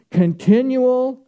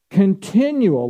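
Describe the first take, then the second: First: Continual said higher and slow, each syllable stretched; stressed Continual. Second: Said in the usual way. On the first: Shown as a demonstration. Preacher presses the word on the congregation, stressed and slow. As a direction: lean hard into Continual. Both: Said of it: "listen to what I'm saying here".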